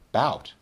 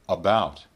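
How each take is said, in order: First: It is said in its most reduced form. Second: It is said in a somewhat reduced form.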